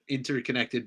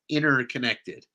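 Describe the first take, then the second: First: The T in the middle is clearly pronounced. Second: The T in the middle is almost silent. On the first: "there is a T in it" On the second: "the T almost falls silent"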